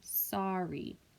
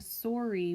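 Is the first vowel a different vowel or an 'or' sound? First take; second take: different vowel; 'or' sound. First: The first vowel is not an 'or' sound. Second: The first vowel is an 'or' sound. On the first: The speaker calls it right. "we're saying sorry. So that's a different sound" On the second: The speaker calls it wrong. "We aren't saying sorry"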